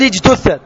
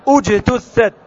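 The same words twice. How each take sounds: First: اجتثت begun with i, ijtuththat; the mistaken i start on اجتثت; wrong reading. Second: اجتثت begun with u, ujtuththat; correct reading. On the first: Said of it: "اجتثت خطأ". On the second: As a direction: start اجتثت on a rounded u sound. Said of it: "هكذا تقول". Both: Shown as a demonstration.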